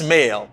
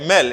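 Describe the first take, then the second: First: The vowel is a long 'ay' sound. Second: The vowel is a short 'eh' sound. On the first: The speaker calls it right. "It's male" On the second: The speaker calls it wrong. "No, it's not mel"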